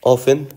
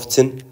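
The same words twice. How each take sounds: First: The t sound is left silent in the word. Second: The t sound is pronounced in the word. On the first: The speaker calls it right. "التي ما تلفظ" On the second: The speaker calls it wrong. "ما تقول often"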